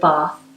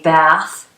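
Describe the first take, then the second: First: It is said in a British accent. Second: It is said in an American accent. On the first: "instead of bath" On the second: "Americans, they say bath"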